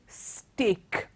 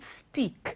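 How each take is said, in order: First: The vowel does not sound like teak. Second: The vowel sounds like the one in teak. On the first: The speaker calls it right. "it is steak" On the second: The speaker calls it wrong. "It's not steak"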